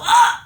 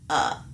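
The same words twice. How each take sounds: First: The sound is loud and forceful. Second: The sound is soft and gentle. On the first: The speaker calls it wrong. "Don't go uh, because that's when you're gonna feel that pain" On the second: The speaker calls it right. "be very soft about it"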